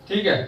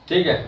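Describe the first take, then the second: No difference in how they are said.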